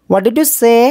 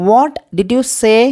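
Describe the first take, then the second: First: Said in the usual way. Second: Very slow, each word laid out for learners; slow model phrase. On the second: Shown as a demonstration. Teacher to Tamil learners, slow clear model question. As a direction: drag the question out slowly like a teacher. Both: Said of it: "teacher models English phrase twice".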